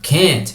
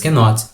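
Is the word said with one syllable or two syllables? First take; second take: one syllable; two syllables. First: The contracted form is said with one syllable. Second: The full form is said with two syllables. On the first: "bem mais contraído. Can't, mais rápido" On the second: "para dar ênfase na negativa"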